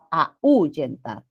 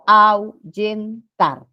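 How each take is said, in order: First: Slow "Ahuyentar" as a, Ú, yentar; mispronunciation demo. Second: Slow "Ahuyentar" as au, yen, tar; "Ahuyentar" in three beats, au kept as one glide; syllable by syllable. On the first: Teacher repeats the word that does not exist, split and misstressed. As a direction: split "Ahuyentar" after the A and stress the U. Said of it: "la palabra ahuyentar no existe". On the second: Teacher asks students how we pronounce it, syllabified. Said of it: "¿cómo pronunciamos?". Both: Shown as a demonstration.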